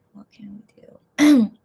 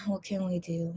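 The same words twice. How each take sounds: First: Slow breathy whisper. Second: Said in the usual way. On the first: Real, not acted. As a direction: whisper it back to yourself, slowly. Repeats line as slow whisper.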